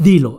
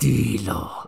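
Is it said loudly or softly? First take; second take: loudly; softly. First: It is said loudly and forcefully. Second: It is said softly and quietly.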